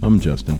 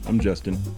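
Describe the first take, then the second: First: It is said loudly. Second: It is said quietly.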